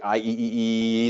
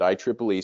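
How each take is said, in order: First: The acronym is read as four separate letters. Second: The acronym is read as I triple E. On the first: The speaker calls it wrong. "it doesn't sound as cool" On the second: The speaker calls it right. "that's exactly how you pronounce it"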